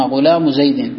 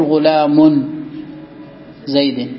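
First: "غلام" said ghulamu, running straight into "زيد"; tanween dropped. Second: "غلام" said ghulamun, ending in n, then a pause; tanween wrongly kept. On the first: Teacher correcting the form, "غلام" as ghulamu joined to the next word. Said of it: "تحذف التنوين عند الإضافة". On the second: Teacher showing what not to say, "غلام" as ghulamun. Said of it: "ما تقول". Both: Shown as a demonstration.

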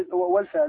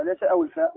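First: والفاء said high and pointed, correcting أو الفاء; high corrective emphasis on والفاء; stress on والفاء. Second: Said in the usual way. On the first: Shown as a demonstration. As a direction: lift the و of والفاء.

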